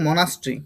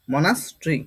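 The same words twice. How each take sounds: First: মনাস্ট্রি as one connected word, mo-nas-tri; pronunciation demo. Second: মনাস্ট্রি split as mo-nas, tri; broken-up pronunciation. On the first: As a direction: model মনাস্ট্রি neatly, falling at the end. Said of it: "এটার উচ্চারণ কি হবে?". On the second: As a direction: pause inside মনাস্ট্রি before the final tri. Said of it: "এটাই এই ধরনের উচ্চারণ হবে". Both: Shown as a demonstration.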